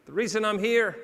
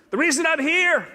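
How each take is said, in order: First: Said in the usual way. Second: Loud, high declaration; booming start; emphatic opener. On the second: Shown as a demonstration. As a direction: announce it to the room.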